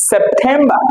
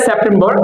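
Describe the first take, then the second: First: সেপ্টেম্বর as sep-THEM-ba, aspirated t; smart pronunciation. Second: সেপ্টেম্বর as sep-tem-bor, run together; usual pronunciation. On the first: Teacher showing a smarter way, smart pronunciation. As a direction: say সেপ্টেম্বর ending in "-ba", no r. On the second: Teacher naming the month the usual way, usual pronunciation. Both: Shown as a demonstration. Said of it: "একটু smartly বলতে পারি".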